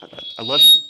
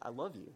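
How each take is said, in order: First: A sudden loud squeal of love; squealed love you. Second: Said in the usual way. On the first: Retold or imitated. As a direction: squeal it out like a giddy kid. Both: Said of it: "Minus the squeal".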